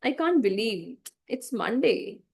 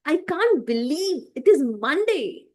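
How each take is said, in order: First: Slow, bored sigh of a line. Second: Higher, slow, bright-eyed delivery; excited. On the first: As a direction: sound utterly bored. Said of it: "if I say in a bored way". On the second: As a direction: sound thrilled it's Monday. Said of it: "I'm excited right now". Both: Shown as a demonstration.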